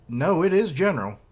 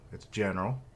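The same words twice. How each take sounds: First: Is punched high and loud; stress on is. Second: Said in the usual way. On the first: Acted. Kyokai insisting on her title, stress on is. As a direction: insist hard on is.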